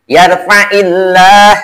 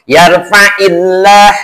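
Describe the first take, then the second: Both takes have the same delivery.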